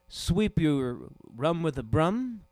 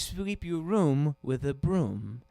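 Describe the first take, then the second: First: The vowel is short, like in 'rum'. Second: The vowel is long, like in 'doom'. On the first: The speaker calls it wrong. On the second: The speaker calls it right.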